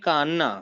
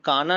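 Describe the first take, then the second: First: The n sound is held long and doubled. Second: The n sound is short and single. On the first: The speaker calls it right. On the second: The speaker calls it wrong. "काना नहीं"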